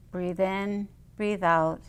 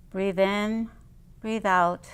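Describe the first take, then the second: No difference in how they are said.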